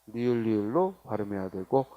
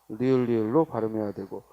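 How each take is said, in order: The two takes are said the same way.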